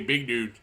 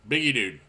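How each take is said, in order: First: The middle vowel is dropped, said quickly. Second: The middle vowel is clearly pronounced. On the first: The speaker calls it wrong. "people don't say the E in biggie dude. You know, they read it fast" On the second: The speaker calls it right. "there's an E in there"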